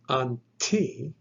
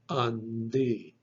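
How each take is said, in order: First: The middle consonant is a voiceless t sound. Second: The middle consonant is a voiced d sound. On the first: The speaker calls it wrong. "You would not pronounce it anti" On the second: The speaker calls it right. "The tav actually gets softened or vocalized, and it is pronounced then andi"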